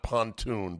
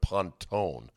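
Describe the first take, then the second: First: The name ends with a 'toon' sound. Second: The name ends with a 'tone' sound. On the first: The speaker calls it wrong. "Not pontoon" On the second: The speaker calls it right. "but Pontone"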